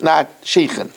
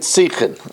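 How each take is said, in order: First: The word begins with an sh sound. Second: The word begins with a plain s sound. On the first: This is the newer pronunciation made popular later. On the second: This is the older pronunciation learned in yeshiva. "in yeshiva we learned"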